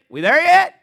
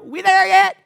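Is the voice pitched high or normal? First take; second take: normal; high. First: The voice is at a normal pitch. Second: The voice is pitched noticeably higher.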